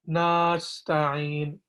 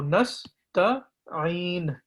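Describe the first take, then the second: First: The vowel after the first N is drawn out. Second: The vowel after the first N is kept short. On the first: The speaker calls it wrong. "we will not stretch the A sound" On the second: The speaker calls it right. "we will say nas, nas"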